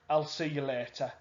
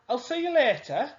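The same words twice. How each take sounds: First: It is said as a plain statement. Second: It is said as a question. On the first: It gives information. "That's information" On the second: It asks whether they will meet later. "if I change my voice slightly and say, ... I'm asking a question"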